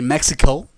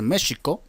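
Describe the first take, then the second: First: It is said with an English-like American accent. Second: It is said with a native, non-English pronunciation. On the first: The speaker calls it wrong. "como lo pronuncian algunos que se sienten gringos" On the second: The speaker calls it right. "debería pronunciarse México"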